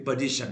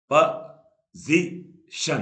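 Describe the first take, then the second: First: Said in the usual way. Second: position very slow and loud, a pause between each syllable. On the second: Shown as a demonstration. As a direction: break position into three slow, separate beats. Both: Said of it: "तीन बार टूटा".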